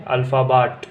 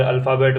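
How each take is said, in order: First: अल्फ़ाबाट with a long "aa" in the last syllable, ending "-baat"; German pronunciation. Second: अल्फ़ाबेट with an "e" in the last syllable, ending "-bet"; English pronunciation. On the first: Teacher giving the German word for alphabet, अल्फ़ाबाट ending in long "baat". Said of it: "German में अल्फ़ाबाट". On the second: Teacher contrasting with German, English अल्फ़ाबेट ending in "bet". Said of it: "English के अंदर अल्फ़ाबेट बोलते हैं". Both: Shown as a demonstration.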